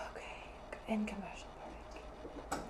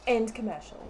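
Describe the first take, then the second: First: Very soft, low whisper; whispered sign-off. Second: Said in the usual way. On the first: Real, not acted. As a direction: whisper it under your breath. First sign-off, under the breath.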